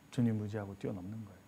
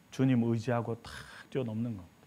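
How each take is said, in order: First: Much softer, lower, 주님 leaning in; soft low repeat. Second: Said in the usual way. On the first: Shown as a demonstration. Preacher echoing his point to the congregation, much softer. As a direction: murmur the promise back gently. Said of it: "repeated much softer". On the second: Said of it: "first statement before soft repeat".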